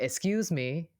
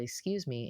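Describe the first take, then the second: First: A louder, higher "Excuse me" with a rising end. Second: Said in the usual way. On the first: Retold or imitated. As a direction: call out "Excuse me" louder so she hears through the mask. Third ask, she still can't hear.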